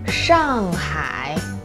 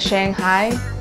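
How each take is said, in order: First: It is said with Mandarin pronunciation and tones. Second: It is said with English-style pronunciation. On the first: The speaker calls it right. "Chinese people call it Shanghai" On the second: The speaker calls it wrong. "It sounds very close, but not completely correct"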